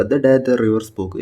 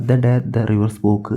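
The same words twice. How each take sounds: First: Slow title reading. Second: Said in the usual way. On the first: Shown as a demonstration. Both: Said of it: "ഇതിൻ്റെ title ഒന്ന് നോക്കുക".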